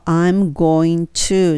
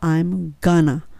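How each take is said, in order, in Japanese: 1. それぞれの単語を完全に、別々に言う。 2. 単語が縮まって reduced form になる。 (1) "I'm going to っていうのは" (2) "I'm gonna になります"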